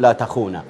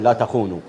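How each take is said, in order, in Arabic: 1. ينتهي الفعل بحركة 'a'. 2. ينتهي الفعل بحركة 'u'. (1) "انا لا اعتقد ان ... يقول لا تخونا" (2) "فهو يقول لا تخونوا"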